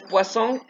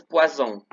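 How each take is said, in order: First: "poisson" as "pwa-SON", rising; normal S. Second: "poisson" as "pwa-ZON", falling; buzzing Z. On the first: Teacher sets fish against poison, "poisson" with S. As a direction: hiss the S in "poisson", lift the end. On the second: Teacher sets poison against fish, "poisson" with Z. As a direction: buzz the S of "poisson" as Z, drop the end. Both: Shown as a demonstration. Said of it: "como lo dicen, significan cosas diferentes".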